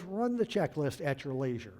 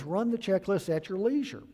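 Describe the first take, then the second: First: Said in the usual way. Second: Higher, louder mocking take of "leisure"; mock easygoing captain. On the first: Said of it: "He says". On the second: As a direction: lampoon his casual order. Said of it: "trying to be easy, buddy".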